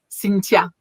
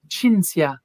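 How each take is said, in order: First: The middle sound is a plain t. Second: The middle sound is a ts. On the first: "it's Cynthia with a T" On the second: "Italians that called me Cinzia"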